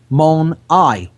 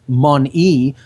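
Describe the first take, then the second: First: The word ends with an 'eye' vowel. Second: The word ends with an 'ee' vowel. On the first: This reveals the claimed meaning 'one eye'. "but it's mon-I, one eye" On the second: This is the everyday pronunciation. "We just pronounce it mon-e"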